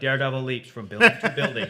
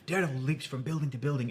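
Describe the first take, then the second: First: It is read in a lively, dramatic way. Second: It is read in a flat, cold way. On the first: The speaker calls it right. "It should be like" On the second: The speaker calls it wrong. "it shouldn't ever be so clinical and cold"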